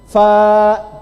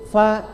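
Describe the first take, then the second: First: The vowel is held long, four beats. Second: The vowel is a bit longer, two beats. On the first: "Empat harokat" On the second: "karena ada dua, agak panjang sedikit"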